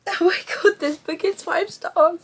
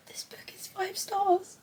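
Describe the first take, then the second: First: High-pitched teary exclamation; crying. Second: Slow, high tearful whisper; crying. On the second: Reader rating the book she just finished, whispering through tears. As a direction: barely get it out, very softly through tears. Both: Real, not acted. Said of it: "I don't know why I'm crying".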